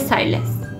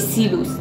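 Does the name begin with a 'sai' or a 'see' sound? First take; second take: sai; see. First: The first syllable has an 'eye' vowel. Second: The first syllable has an 'ee' vowel. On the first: The speaker calls it right. "میگه سایلس" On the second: The speaker calls it wrong. "هیچ وقت نمیگه سیلوس"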